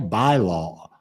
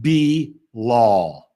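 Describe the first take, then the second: First: The first vowel is a long I sound. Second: The first vowel is a long E sound. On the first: "Is it a long I?" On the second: "Like a long E"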